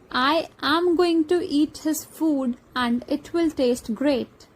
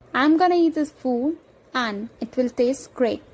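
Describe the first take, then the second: First: Each word is pronounced fully and separately. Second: Words are contracted, reduced and linked together. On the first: "Our sentence is" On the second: "Let's once again recall it"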